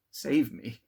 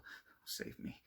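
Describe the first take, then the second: First: Much louder, panicked plea; desperate shout. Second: Slow, whispered plea; terrified whisper. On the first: Victor screams for help as the monster seems to seize him. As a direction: cry out for rescue. Terrified of the spectre. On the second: Victor pleads in a whisper as the spectre nears. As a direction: beg under the breath, frozen with fear. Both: A narrator's reading.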